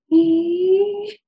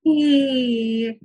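First: High "ee" climbing on an in-breath; inhalation phonation. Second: "ee" gliding down on the out-breath; exhalation phonation. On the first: Clinician tries without hands, high inhaled "ee". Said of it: "I'll, I'll try it". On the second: Clinician tries without hands, exhaled falling "ee". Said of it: "come back down on that exhalation". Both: Shown as a demonstration.

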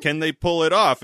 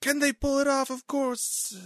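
First: Loud, raised-pitch question through a laugh; questioning president. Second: Very high, squealing mock excitement; excited boastful general. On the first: Retold or imitated. President asking his general, mock incredulous. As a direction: ask it as the worried president, half laughing. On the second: General answering the president, wildly excited. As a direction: echo the question in giddy, over-the-top pride. Voicing Scott's boastful reply.

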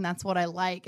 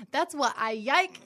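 First: Said in the usual way. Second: Put-on high, slow child singalong with "yike" starting in y; little niece's mispronunciation. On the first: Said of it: "instead of like". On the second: Aunt mimicking niece singing in back seat, high "yike" with a y. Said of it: "Addie's in the back going".

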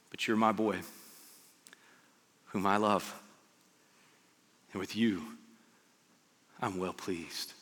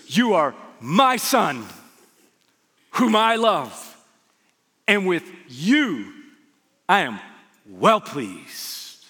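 First: Low, hushed, with long pauses; soft fatherly words, phrase by phrase; tender reassurance. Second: Loud, slow declaration with big swells; proud proclamation. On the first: God to Jesus before any miracles, tender reassurance. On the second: God to Jesus at his baptism, proud booming proclamation. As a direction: proclaim it in weighty separate phrases. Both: Acted.

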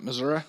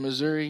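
First: "Missouri" ending in "uh"; "Missouri" with a final schwa instead of "ee"; local pronunciation. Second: Said in the usual way. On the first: Shown as a demonstration. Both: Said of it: "That's why they say it".

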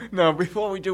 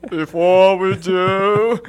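First: Said in the usual way. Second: Loud, very slow, drawn-out announcement; silly put-on voice. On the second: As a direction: stretch each word in a mock grand voice. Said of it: "The man with the voice".

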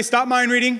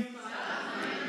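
First: Called out loud. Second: Whispered. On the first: Shown as a demonstration. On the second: Pretend. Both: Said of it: "Somebody say".

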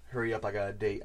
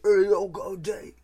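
First: Said in the usual way. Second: A hammed-up bad British accent, higher and louder; terrible British accent. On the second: Quoting the pig boss from the trailer, terrible British accent. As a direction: ham up a British thug accent badly. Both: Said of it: "in the terrible British accent".

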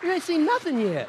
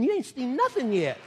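First: "nothing" hit louder and higher; louder repeat. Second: "nothing" leaned on, falling; first promise, firm; building emphasis. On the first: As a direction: drive it home harder. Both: Shown as a demonstration. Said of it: "repeated louder".

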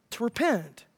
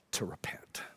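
First: "repent" said aloud, pitch lifted on the second syllable; voiced emphasis. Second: Very low, breath-only whisper. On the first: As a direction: say "repent" clearly, stressing PENT. Repeated aloud after the whisper. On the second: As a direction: whisper it as a solemn answer. Climactic word whispered, then repeated. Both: Shown as a demonstration.

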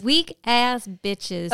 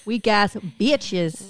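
First: Slow, relished repeat of weak ass bitches; gleeful echo. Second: Slow, scornful weak ass bitches; contemptuous drawl. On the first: Friend gleefully echoing the insult, slow and relished. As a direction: savor the insult back to her. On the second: Friend spitting out contempt for weak parties, slow and scornful. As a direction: drag out every word with disdain. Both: Real, not acted.

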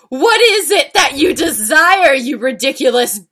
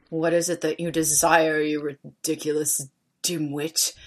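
First: High, loud theatrical questioning; dramatic demand. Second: Cold, low, quiet contempt; Snape. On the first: Reader voicing an angry teacher's question, high melodramatic demand. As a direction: demand it grandly with a swooping pitch. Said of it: "Come on, we're doing voices". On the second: Reader doing Snape's voice after prompting, cold low sneer. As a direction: demean them icily, softly and low. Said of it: "demeaned angrily in his cold voice". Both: Acted.

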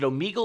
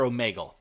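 First: "Omegle" with a long ee in the middle; Omegle with "mee". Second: "Omegle" with an ay in the middle; Omegle with "may". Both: Shown as a demonstration. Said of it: "Is it Omegle or Omegle?".

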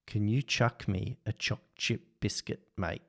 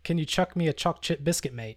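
First: Australian accent. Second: [name]'s try at an Aussie accent; attempted Australian accent. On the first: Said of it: "I want you to say". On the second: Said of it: "one more challenge". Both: Shown as a demonstration.

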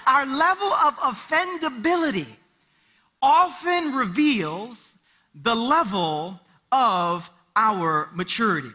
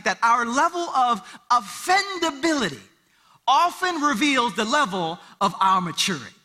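First: "often reveals" stretched slow and weighty; slow emphatic repeat. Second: Said in the usual way. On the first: Shown as a demonstration. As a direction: let each phrase land slowly. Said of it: "repeated for emphasis". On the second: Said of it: "first statement".

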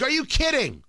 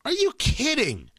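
First: Higher, disbelieving are you kidding; stunned, can't believe it; incredulous. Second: Higher and drawn out, each word stretched in disbelief; slow incredulous. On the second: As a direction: let the disbelief sink in slowly. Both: Retold or imitated. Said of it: "I'm like".

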